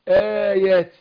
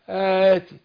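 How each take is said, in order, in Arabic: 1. صوت الياء منطوق بوضوح وكامل. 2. صوت الياء ضعيف وبالكاد يُسمع. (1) "وبحقق الياء برضو" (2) "الياء ما حققهاش فيرام عايمة كده"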